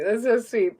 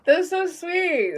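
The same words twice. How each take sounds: First: Said in the usual way. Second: High, slow, drawn-out coo of delight. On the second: Real, not acted. Touched by a viewer's kind comment, a high slow coo. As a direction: melt over the compliment, stretching it out.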